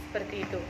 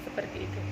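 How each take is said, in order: The two takes are said the same way.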